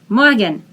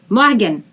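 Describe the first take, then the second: Both takes have the same delivery.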